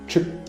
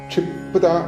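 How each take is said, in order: First: The p sound is silent. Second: The p sound is clearly pronounced. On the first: The speaker calls it wrong. "സാധാരണ മലയാള അക്ഷരങ്ങൾ ഉച്ചരിക്കുന്നത് പോലെ... പ് silent ആയിരിക്കും" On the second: The speaker calls it right. "മന്ത്രത്തിന്റെ ഒരു ശക്തി കിട്ടാനും ക്ഷിപ്ത എന്ന് ചൊല്ലിപ്പോകുക"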